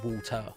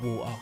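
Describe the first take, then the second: First: It is said without a Cockney accent. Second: It is said with a Cockney accent. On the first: This is how the speaker normally says it. "I do say water" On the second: This is not how the speaker normally says it. "That's a bit cockney"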